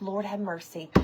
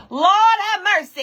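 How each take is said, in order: First: Low, quiet, worried aside; muted dismay. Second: Loud, high, delighted call-out; excited exclamation. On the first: Retold or imitated. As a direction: say it low and under your breath. Retold low reaction to missing hen. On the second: Real, not acted. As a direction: belt it out high to the viewers. Breaks off to hail viewers.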